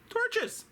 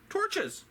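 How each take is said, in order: Both takes have the same delivery.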